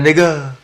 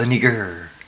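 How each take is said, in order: First: The ending is a soft vowel without R. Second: The ending has a hard pronounced R sound. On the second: "hard too. hard, hard"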